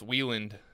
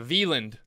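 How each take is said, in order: First: The name is pronounced the American way. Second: The name is pronounced the German way. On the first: This is the name after it was changed. "a more American" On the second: This was the family's original name. "It was like really German"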